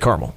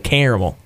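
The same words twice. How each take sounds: First: It is said the northern way. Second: It is said the southern way. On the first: "I say caramel. So I'm more northern" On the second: "in the South and even in Kentucky, we say caramel"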